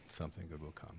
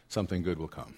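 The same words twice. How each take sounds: First: Repeated almost in a whisper; soft echo. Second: Said in the usual way. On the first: Shown as a demonstration. Preacher echoing his promise to the congregation, very softly. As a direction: let the echo fall away softly.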